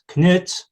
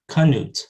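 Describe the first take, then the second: First: The k and n are joined without a vowel. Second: A short schwa separates the k and n. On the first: This is how Scandinavian speakers say the name. "in Scandinavian languages, they pronounce it Knut" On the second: This is how an English speaker says the name. "They'll add the schwa before that nasal"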